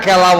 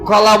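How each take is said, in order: First: The first vowel is an 'e' sound. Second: The first vowel is an 'o' sound. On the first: The speaker calls it wrong. "কেলা বলে" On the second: The speaker calls it right. "কলা শুদ্ধ"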